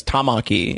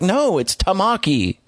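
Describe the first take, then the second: First: "Tamaki" with the English actors' misplaced stress, ta-MA-ki; wrong-syllable stress. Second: "Tamaki" slower and higher, stress moved to its proper syllable; corrective stress. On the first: Retold or imitated. Imitating Persona voice actors, "Tamaki" as ta-MA-ki. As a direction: punch MA in "Tamaki". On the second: Shown as a demonstration. Correcting the voice actors, "Tamaki" slow and higher. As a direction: correct "Tamaki" slowly, syllables set right. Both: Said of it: "put emphasis on the wrong syllable".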